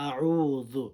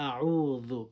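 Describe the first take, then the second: Both takes have the same delivery.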